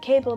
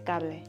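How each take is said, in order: First: It has the usual native English pronunciation. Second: It is read with foreign letter sounds. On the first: The speaker calls it right. "Instead of saying cable" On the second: The speaker calls it wrong. "they say cable ... they are using the pronunciation from their language"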